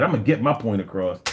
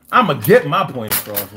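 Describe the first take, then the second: First: A fast, clipped quote of the man; quick quote. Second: A louder, insistent repeat of the same quote; emphatic repeat. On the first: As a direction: rattle off his line quickly. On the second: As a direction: push it harder the second time. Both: Retold or imitated. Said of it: "This man said".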